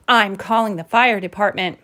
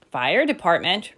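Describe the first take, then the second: First: Mild exasperation, ending settled; firm, understated groan; exasperated statement. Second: "Fire department?" lifted at the end as a question; "Fire department?" as a little sister's puzzled echo, rising. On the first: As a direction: announce it as a fed-up mama. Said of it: "groaned Mama". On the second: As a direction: echo "Fire department?" quizzically, ending upward. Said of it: "repeated Jilly Boo". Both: Acted.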